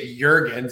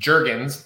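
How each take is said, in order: First: The name is said in a European way. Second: The name is said in a plain American way. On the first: Others in another region say it this way. "that's the European pronunciation" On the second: This is how the family says it. "last name is pronounced Jergens, like the lotion"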